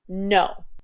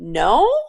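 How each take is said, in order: First: The voice falls with finality. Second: The voice rises like a question.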